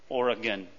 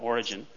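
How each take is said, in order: First: The name sounds much like the word Oregon. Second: The name does not sound like Oregon. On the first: This is the more proper form of the name. The speaker calls it right. "more properly Origen" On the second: This is the form Americans tend to use. The speaker calls it wrong. "rather than Origen"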